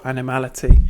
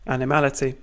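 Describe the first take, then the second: First: Animality slurred as "ana-ality", the m dropped; mispronounced. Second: Animality said carefully as AN-i-MAL-i-ty with every syllable; corrected pronunciation. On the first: Mumbling animality to the class with the m dropped. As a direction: stumble over animality and drop the m. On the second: Correcting a slip for the class, carefully saying Animality. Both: Real, not acted.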